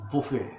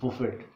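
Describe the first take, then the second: First: The final t sound is silent. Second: The final t sound is pronounced. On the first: It means a self-service meal. "जब इसकी pronunciation लेते हैं तो इसका मतलब ये हो जाता है बुफे" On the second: It means to strike or beat. "जिसको हम प्रोनाउंसिएट करते हैं बुफेट"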